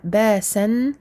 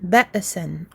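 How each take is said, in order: First: The glottal stop is left out entirely. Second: The glottal stop is released with an echoing bounce. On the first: "on n'a plus de, de hamza" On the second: "en faisant une sorte de qalqala"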